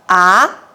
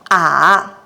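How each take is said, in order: First: The pitch starts mid and rises to high. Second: The pitch dips down then rises again. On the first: "The second tone starts from the middle and goes up to the highest light" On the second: "The first pitch begins from the middle and drops down"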